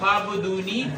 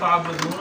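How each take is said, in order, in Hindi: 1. शब्द लंबे 'ee' स्वर पर खत्म होता है। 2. शब्द 'n' की ध्वनि पर खत्म होता है।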